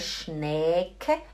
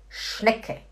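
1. A vogal antes do som de k é prolongada. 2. A vogal antes do som de k é rápida. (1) "Não é Schnecke" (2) "Você tem que falar rápido"

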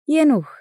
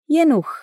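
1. A palavra termina com som de ch. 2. A palavra termina com som de ch.

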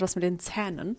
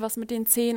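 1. Der Vokal in Zähnen klingt wie ein offenes ä. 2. Der Vokal in Zähnen klingt wie ein geschlossenes e.

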